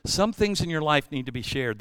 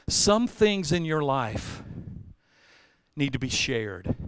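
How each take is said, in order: First: "Some" stressed again, a bit quicker; restated point. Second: "some" leaned on, slow; slow, emphatic point. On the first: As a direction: repeat the point firmly. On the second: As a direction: spell out the point slowly. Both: Shown as a demonstration.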